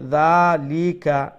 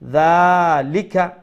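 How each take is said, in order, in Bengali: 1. মাঝের 'li' অক্ষরের স্বরটি লম্বা। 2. মাঝের 'li' অক্ষরের স্বরটি ছোট। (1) "লিটা একটু লম্ব হয়ে গেল হারকাত থেকে" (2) "লামজের লি হারকাত শর্ট, কাবজর কা শর্ট"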